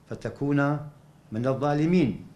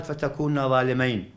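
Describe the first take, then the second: First: Said in the usual way. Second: ظالمين ending in "-ayn", not "-een"; dual ending -ayn. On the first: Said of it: "لاحظ". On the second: Shown as a demonstration. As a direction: say ظالمين as a dual, with "ay" in the last syllable. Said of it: "ما قال". (ظالمين بصيغة المثنى، بفتح الميم وتسكين الياء)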